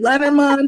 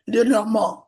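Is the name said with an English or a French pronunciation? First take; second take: English; French. First: The name is said with English pronunciation. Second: The name is said with French pronunciation. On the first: "We're not in France. So we can say" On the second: "if we were in France, we would say"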